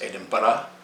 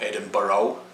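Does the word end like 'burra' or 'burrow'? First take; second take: burra; burrow. First: The ending sounds like 'burra', without an o. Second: The ending sounds like 'burrow', with an o. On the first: The speaker calls it right. "It's Edinburgh" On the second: The speaker calls it wrong. "not Edinburgh. There's no O or anything like that in there"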